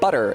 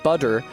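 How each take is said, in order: First: The middle consonant is a quick tongue tap. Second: The middle consonant is a full, clear D. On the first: The speaker calls it right. "it's an alveolar tap" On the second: The speaker calls it wrong. "It's not a D, it's not butter"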